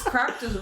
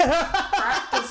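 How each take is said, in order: First: Said in the usual way. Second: Laughing. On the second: Real, not acted. Laughs, repeats the phrase.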